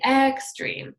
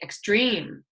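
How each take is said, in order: First: The stress is on the first syllable. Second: The stress is on the second syllable. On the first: The speaker calls it wrong. "We don't say extreme" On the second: The speaker calls it right. "we say extreme"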